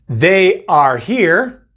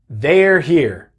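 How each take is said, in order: First: The subject and verb are said as separate words. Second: The subject and verb are joined into one contraction.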